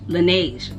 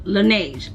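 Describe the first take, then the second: First: The name sounds like lah-nezh. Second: The same.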